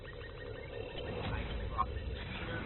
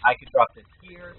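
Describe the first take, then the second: First: Whispered. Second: Said in the usual way. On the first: Shown as a demonstration. Repeating the line, whispered slowly.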